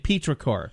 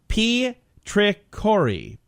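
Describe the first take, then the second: First: The word ends on the final consonant. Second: The word ends with an extra vowel sound. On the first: The speaker calls it right. "Probably Petrichor" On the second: The speaker calls it wrong. "I don't know if you pronounce the E"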